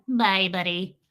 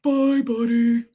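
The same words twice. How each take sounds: First: Lightly voiced little cartoon farewell; a hint of a cartoon creature; penguin from Elf. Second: Slow, loud, stretched cartoon farewell; narwhal from Elf. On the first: Penguin saying goodbye to Buddy, light cartoon voice. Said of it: "And the penguin". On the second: Narwhal seeing Buddy off, slow cartoon voice. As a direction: drag it out in a creature voice. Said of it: "narwhal in Elf".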